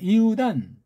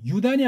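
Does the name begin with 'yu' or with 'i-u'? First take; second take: i-u; yu. First: The name begins with separate 'i' and 'u'. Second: The name begins with a single 'yu' sound. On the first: The speaker calls it right. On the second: The speaker calls it wrong.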